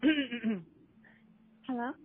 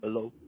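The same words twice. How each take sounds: First: It is said in a high, feminine voice. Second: It is said in a lower, masculine voice.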